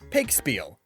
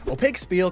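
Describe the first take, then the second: First: The opening O sound is dropped. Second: The opening O sound is pronounced.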